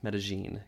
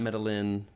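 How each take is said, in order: First: The double L is said like zh. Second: The double L is not said like zh. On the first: The speaker calls it right. "The double L is like a zh sound" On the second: The speaker calls it wrong. "not Medellin"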